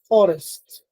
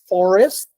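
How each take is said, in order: First: The r is a rolled alveolar trill. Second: The r is a plain English r.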